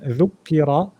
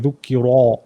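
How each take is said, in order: First: The r is moderately thick, between thin and full. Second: The r is said very thick, with a full mouth. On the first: The speaker calls it right. "it's not empty mouth, but it's not too full either" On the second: The speaker calls it wrong. "don't overdo it. Don't say dhukira"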